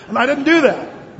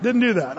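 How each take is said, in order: First: Loud, high, firm denial; emphatic denial. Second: Said in the usual way. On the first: Real, not acted. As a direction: stamp down on "didn't do that". Insists he didn't do it.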